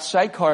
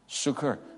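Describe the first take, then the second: First: The name is said the familiar English way. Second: The name is said the original way. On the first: "as we call it" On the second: "is actually pronounced Sukkar"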